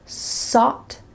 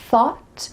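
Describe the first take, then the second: First: The word begins with a hissing s sound. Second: The word begins with a soft th sound. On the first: The speaker calls it wrong. "switching an S and a T H sound, sought instead of thought" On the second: The speaker calls it right. "your tongue is between your teeth"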